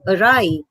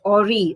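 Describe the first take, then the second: First: The word does not sound like 'ori'. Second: The word sounds like 'ori'. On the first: The speaker calls it right. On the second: The speaker calls it wrong.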